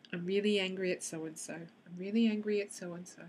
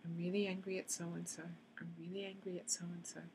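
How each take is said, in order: First: Said in the usual way. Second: Tapping phrase fading into near silence; fading to quiet. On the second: Shown as a demonstration. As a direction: repeat it softer and softer until it is almost gone. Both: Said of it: "repeats the tapping phrase as a demo".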